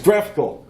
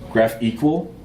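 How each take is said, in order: First: The ending sounds like the word 'ical'. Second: The ending sounds like the word 'equal'. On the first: The speaker calls it right. "It's graphical. That makes way more sense" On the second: The speaker calls it wrong. "is how they want you to pronounce it"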